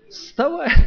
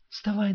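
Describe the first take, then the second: First: It is said loudly and forcefully. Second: It is said quietly and gently. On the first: The sleeper is woken urgently. The speaker calls it right. "как схватил его" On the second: The sleeper is woken softly. The speaker calls it wrong. "тихонечко начнете так"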